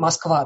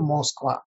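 First: The first vowel sounds like a clear 'a'. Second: The first vowel sounds like a full 'o'. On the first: This is how Muscovites actually say it. "очень много АК, мы как говорим Москва" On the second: This is how Muscovites do not say it. "мы же не говорим Москва"

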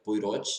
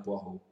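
First: The name is read as it is spelled. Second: The name is said the French way. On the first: The speaker calls it wrong. "Eu pronunciei a vida inteira Poirot" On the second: The speaker calls it right. "até que me falaram que era Poirot"

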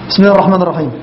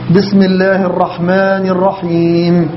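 First: The long vowels are cut short and rushed. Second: The long vowels are clearly drawn out. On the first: The speaker calls it wrong. "ما في مدود اصلا, هو لغى المدود اللي هي الطبيعيه" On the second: The speaker calls it right. "كان يوضح الحروف"

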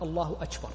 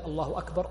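First: The k in akbar sounds close to t. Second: The k in akbar is a clear k. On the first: The speaker calls it wrong. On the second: The speaker calls it right.

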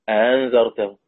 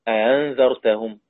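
No difference in how they are said.

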